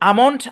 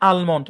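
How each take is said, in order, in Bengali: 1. এই শব্দে L-এর ধ্বনি উচ্চারণ করা হয় না। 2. এই শব্দে L-এর ধ্বনি উচ্চারণ করা হয়। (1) "এলটাকে সাইলেন্ট রেখে উচ্চারণ করা যায়" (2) "আবার উচ্চারণও করা যায়"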